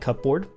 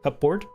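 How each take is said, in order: First: The word is said quickly as one blended unit. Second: The same.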